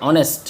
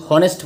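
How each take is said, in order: First: "অনেস্ট" starting on the vowel, h silent; correct pronunciation. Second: "হনেস্ট" with a sounded h at the start; wrong pronunciation. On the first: Teacher gives students the right honest, correct pronunciation. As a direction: drop the h entirely in "অনেস্ট". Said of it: "এটা হবে অনেস্ট". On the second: Teacher warns students what they cannot say, wrong pronunciation. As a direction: breathe an h before the o in "হনেস্ট". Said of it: "হনেস্ট বলতে পারবে না". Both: Shown as a demonstration.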